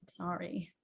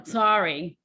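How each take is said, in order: First: Soft, lower, heartfelt "Sorry"; sincere sorry. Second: A second brusque "Sorry"; curt sorry. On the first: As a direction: breathe out "Sorry" gently and mean it. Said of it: "or you can go". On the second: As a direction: toss off "Sorry" again, a bit louder. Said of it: "you know". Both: Shown as a demonstration.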